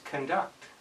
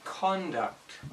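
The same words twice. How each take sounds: First: The stress is on the second syllable. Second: The stress is on the first syllable. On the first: It is a verb meaning to behave. "If it's a verb, it's conduct. ... With the verb, it's on the second syllable" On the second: It is a noun meaning behavior. "If it's a noun, it's pronounced conduct. ... the noun, the emphasis is on the first syllable"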